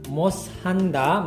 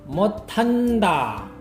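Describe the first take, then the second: First: The middle consonant sounds like s. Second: The middle consonant sounds like t. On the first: The speaker calls it wrong. "Sedangkan moshanda" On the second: The speaker calls it right. "menjadi motanda"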